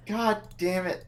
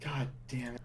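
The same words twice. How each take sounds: First: Higher grumble. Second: Muttered curse. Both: Real, not acted.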